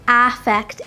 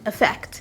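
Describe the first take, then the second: First: The first vowel is clear and distinct. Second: The first vowel sounds reduced, like 'e'. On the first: This is how native speakers usually do not say it. "most of the time native speakers do not pronounce them affect" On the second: This is how native speakers usually say it. "We pronounce them as effect"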